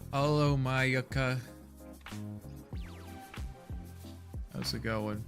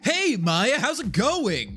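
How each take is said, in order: First: It is said with low energy. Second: It is said with high energy.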